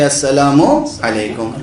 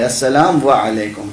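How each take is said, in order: First: A short 'oo' vowel joins 'assalam' to 'alaikum'. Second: A separate 'wa' sound follows 'assalam'. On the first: The speaker calls it right. "मीम के ऊपर पेश है ... वाव नहीं है बीच में" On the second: The speaker calls it wrong. "समझते हैं कि मीम के बाद वाव है ... गलत है वो"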